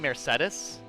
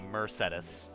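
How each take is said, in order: First: It is pronounced like the car brand. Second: It is pronounced starting like 'Mercy'. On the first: This is the speaker's own way of saying it. "I'm the only one who says her name like the car" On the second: This is how the game's characters say it. "they say Mercedes because they also call her, like, Mercy"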